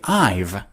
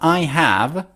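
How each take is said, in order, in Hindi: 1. दोनों शब्द v के साथ मिलकर एक अक्षर बन जाते हैं। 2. दोनों शब्द पूरी तरह और अलग-अलग बोले जाते हैं। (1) "they say I've" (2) "Instead of I have"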